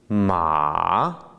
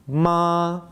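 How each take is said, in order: First: The pitch dips down then rises. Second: The pitch stays level throughout. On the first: It means horse. "a tone that goes down and back up" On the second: It means mother. "with a flat tone"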